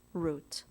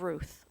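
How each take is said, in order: First: "Ruth" said as "Root", ending in a hard t; Hebrew pronunciation. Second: Said in the usual way. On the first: Shown as a demonstration. Officiant giving her chosen Hebrew name, "Ruth" pronounced "Root". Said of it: "as we would say in Hebrew".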